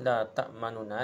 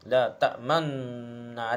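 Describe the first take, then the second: First: A faint short u is heard between the n sounds. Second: The n sounds merge with no vowel between them. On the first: The speaker calls it wrong. "Satu per tiga je bunyi dia, sekadar dhammah ni ... ni cara baca dia panggil raum" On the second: The speaker calls it right. "Lebih utamanya baca la ta'manna. Iaitu mucum dia panggil ismam"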